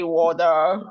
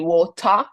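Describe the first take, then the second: First: It is said in an American accent. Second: It is said in a British accent. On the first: "in America they say water" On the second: "in U K they say water"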